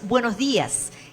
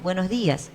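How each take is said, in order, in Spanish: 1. El saludo se dice de forma animada, con mucha energía. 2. El saludo se dice de forma plana, con poca energía. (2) "No es un"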